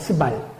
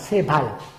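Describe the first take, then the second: First: The first vowel is a short 'eu' sound. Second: The first vowel is an 'e' sound. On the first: This is the form used in the Korean Bible. The speaker calls it wrong. "우리 한글 성경엔 스발로 돼 있잖아" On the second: This is the Hebrew pronunciation. The speaker calls it right. "히브리어 성경 발음은 세발입니다"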